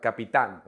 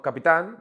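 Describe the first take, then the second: First: "capitán" with firm stress on the last tán; stressed final syllable. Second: "capitán" without stress on the final tán; the wrong take, "capitán" with its last syllable left unstressed; unaccented version. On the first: Teacher correcting for students, capitán stressed on tán. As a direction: land hard on the tán of "capitán". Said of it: "where the accent is needed". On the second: Teacher showing students how not to say capitán, tán unstressed. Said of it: "use your stress and race at the end". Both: Shown as a demonstration.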